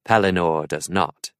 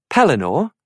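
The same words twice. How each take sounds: First: Said in the usual way. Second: "Pellinore?" asked higher with a questioning rise; puzzled. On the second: A narrator's reading. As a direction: repeat the name "Pellinore?" as a baffled question. Arthur puzzled by name.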